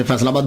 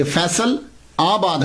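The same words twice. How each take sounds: First: Said in the usual way. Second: फैसल आबाद with a pause between फैसल and आबाद; फैसल आबाद broken into its two words; split into its parts. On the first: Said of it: "उसे फैसलाबाद बोलते हैं". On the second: Shown as a demonstration. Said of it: "ये फैसल आबाद है".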